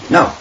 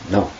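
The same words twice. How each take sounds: First: It is said with a sassy attitude. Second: It is said as a plain refusal.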